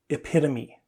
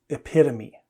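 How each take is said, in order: The two takes are said the same way.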